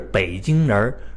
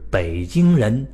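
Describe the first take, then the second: First: The word ends with an r-coloured erhua sound. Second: The word ends plainly with no r-colouring. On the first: The speaker calls it wrong. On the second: The speaker calls it right.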